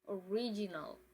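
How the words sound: It is pronounced the English way. "then English"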